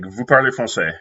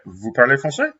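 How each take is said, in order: First: The voice falls at the end. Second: The voice rises at the end. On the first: It states a fact. "if you have a statement like" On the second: It asks a question. "using the rising voice intonation"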